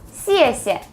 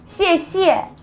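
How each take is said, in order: First: The first syllable is emphasized with a falling tone. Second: The first syllable is not emphasized. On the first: The speaker calls it right. "emphasize the first syllable with the forced tone" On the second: The speaker calls it wrong. "A lot of people say 谢谢 like this. This is not correct"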